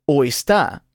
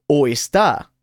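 No difference in how they are said.

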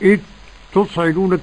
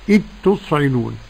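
First: The first word's last sound is heard separately. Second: The first word's last sound merges into a doubled t. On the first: The speaker calls it wrong. "ولا نقرأ إذ تصعدون" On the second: The speaker calls it right. "يصير النطق بحرف واحد مشدد وهو ايه؟ التاء"

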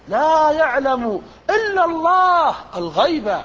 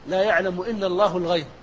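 First: It is delivered emphatically, like a public orator. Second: It is read plainly, without oratorical emphasis. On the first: "لكن الخطيب" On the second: "أردنا أن نقرأ قراءة"

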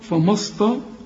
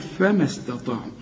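First: The consonants are heavy and emphatic. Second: The consonants are light, not emphatic. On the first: The speaker calls it wrong. "كلها خطأ يا راجل، الفاء مرقق" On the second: The speaker calls it right. "فبشبك الميم مع السين"

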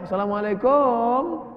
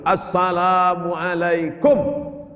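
First: The greeting is drawn out with an added w sound. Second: The greeting is said short, without added sounds. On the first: The speaker calls it wrong. "Ini sekarang banyak yang panjang, ... Mana ada huruf waw di situ?" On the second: The speaker calls it right. "tapi tetap urupnya betul, ... Pendek"

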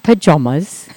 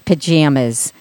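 First: It is said with a New York pronunciation. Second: It is said with a Midwestern pronunciation. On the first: This is the form the classmates insisted on. "not pajamas" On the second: This is how people back home say it. "Where I come from, everybody says pajamas"

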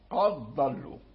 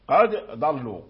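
First: The d merges into one doubled following consonant. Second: The d is pronounced separately before the next consonant. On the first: "إذا أدغمنا فالدال لا يبقى، تصير حرف واحد مشدد" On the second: "لو قلنا قد ضلوا... فيكون الإنسان قد ارتعد لسانه مرتين"

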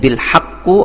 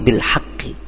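First: The word ends with a u vowel. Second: The word ends with an i vowel. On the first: The speaker calls it wrong. "tidak akan mungkin bil haqqu" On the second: The speaker calls it right. "tetapi bil haqqi"

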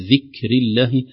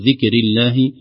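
First: The k ends with a light puff of air. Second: The k has no breathy release. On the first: The speaker calls it right. "همس يخرج من مخرج الكاف، هواء خفيف" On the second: The speaker calls it wrong. "لا نقول ذكر الله"

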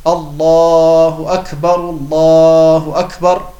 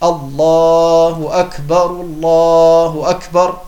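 Both takes have the same delivery.

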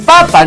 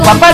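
First: The stress is on the first syllable. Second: The stress is on the second syllable. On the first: The speaker calls it right. "no es con acento" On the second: The speaker calls it wrong. "papá no"

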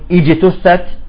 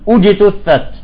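First: The word begins with an i vowel. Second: The word begins with a u vowel. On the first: The speaker calls it wrong. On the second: The speaker calls it right.

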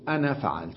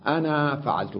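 First: The final vowel of the first word is short. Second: The final vowel of the first word is long. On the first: The final alif is treated as an added letter. "والأكثر يقولون أنا فعلت، أنا فعلت بدون ألف" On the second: The final alif is treated as part of the word. "من العرب من هكذا ينطق بها"

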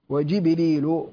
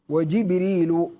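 The two takes are said the same way.

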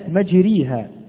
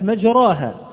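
First: The long vowel is a pure i. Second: The long vowel is a pure open a. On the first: "ولو أنها ياء لكانت مجريها" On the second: "فلو أنها ألف لكانت مجراها"

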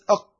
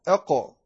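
First: The final q is held tight in the throat. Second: The final q is released with a slight bounce. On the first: The speaker calls it wrong. "لو لم تستخدم القلقلة لبقيت أق هكذا شديدة في حلقك" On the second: The speaker calls it right. "تزيل شدتها بالقلقلة"

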